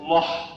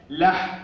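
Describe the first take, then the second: First: لح as dark backed "loh"; wrongly heavy لح. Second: لح as thin front "lah"; light ل and ح. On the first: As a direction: thicken the whole of لح. (لح بتفخيم اللام والحاء خطأً) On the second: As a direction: keep the vowel of لح light. (لح بترقيق اللام والحاء) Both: Shown as a demonstration. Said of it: "الضاء الوحيدة هي المفخمة".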